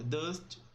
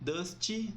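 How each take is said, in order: First: The word ends on a soft T. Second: An extra vowel follows the final T. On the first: The speaker calls it right. "O T é bem suave" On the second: The speaker calls it wrong. "nada de dusty"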